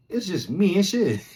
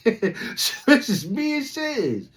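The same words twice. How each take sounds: First: Said in the usual way. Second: Slow laugh through it. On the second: Retold or imitated. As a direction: laugh it out, disbelief. Repeated laughing, stretched.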